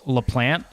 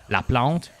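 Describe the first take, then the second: First: The name is said with English pronunciation. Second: The name is said with French pronunciation. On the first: This is how most people say it. "everyone says LaPlante" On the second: This is how the name sounds as a French surname. "that's like a French like last name, which would be like LaPlante"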